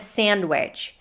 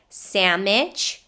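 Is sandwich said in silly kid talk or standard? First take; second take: standard; kid talk. First: It uses the standard adult pronunciation. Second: It uses a silly childish mispronunciation. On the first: "instead of sandwich" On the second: "common with little kids or people using little kid talk to be silly"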